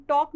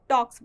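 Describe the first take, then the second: First: "टॉक" said without the final s, as the form to avoid; bare "टॉक", stopping on the k with no s; wrong form talk. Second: "टॉक्स" with the final s clearly sounded; correct form talks. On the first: Teacher contrasting the verb forms for students, showing the wrong form without s. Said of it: "हम टॉक नहीं बोलेंगे". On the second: Teacher showing students the correct singular verb with a clear final s. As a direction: land the s at the end of "टॉक्स". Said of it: "टॉक्स बोलेंगे". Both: Shown as a demonstration.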